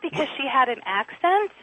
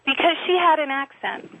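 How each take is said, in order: First: ACCENT rising as a question; "accent" turned up in disbelief; incredulous question. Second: HAD stressed, falling at the end; "had" leaned on, closing firmly downward; pointed repeat. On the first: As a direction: challenge them, lifting the end on "accent". Challenges, then repeats the same words. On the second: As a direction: drive it home with weight on "had". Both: Acted.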